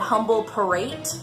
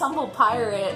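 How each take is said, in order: First: The second word sounds like 'parate'. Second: The second word sounds like 'pirate'. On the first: Someone else got the name wrong. The speaker calls it wrong. "he said" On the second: This is the intended pun name. The speaker calls it right. "it's humble pirate. It's a pun"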